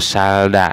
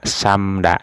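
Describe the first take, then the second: First: Only an l comes before da. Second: Only an m comes before da. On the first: The speaker calls it wrong. "atau salda ya" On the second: The speaker calls it right. "nah ini di kata samda"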